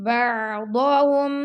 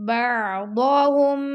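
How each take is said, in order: The two takes are said the same way.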